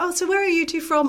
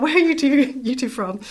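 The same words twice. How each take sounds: First: Put-on high, lofty posh British accent. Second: Said in the usual way. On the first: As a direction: mimic a terribly posh British couple. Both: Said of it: "I'm not gonna do the accent again".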